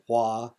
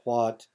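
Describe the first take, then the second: First: The final consonant is left off. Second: The final consonant is pronounced. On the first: "final consonants are omitted" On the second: "instead of"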